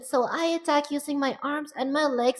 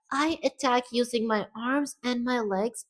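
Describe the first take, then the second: First: Higher, put-on female pitch; more feminine voice. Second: High, slow put-on female voice; feminine character voice. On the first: Streamer retries her attack line, higher feminine voice. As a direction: raise it further into a girlish register. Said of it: "a higher pitch". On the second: Streamer's first try at her attack line, high voice. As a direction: speak slowly in a raised girlish pitch. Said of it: "Gotta get it more feminine". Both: Shown as a demonstration.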